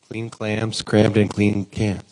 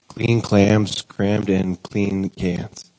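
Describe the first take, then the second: First: It is said faster. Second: It is said at a normal speed.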